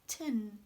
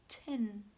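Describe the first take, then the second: First: The syllable has a short, reduced vowel. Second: The same.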